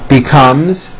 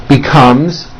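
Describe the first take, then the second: The two takes are said the same way.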